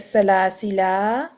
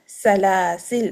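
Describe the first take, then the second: First: The word ends on a long drawn-out vowel. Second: The word ends on a silent consonant. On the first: "with the alif after it, it becomes mad tabi'i, two harakat long" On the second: "delete the alif altogether, make the lam sakin"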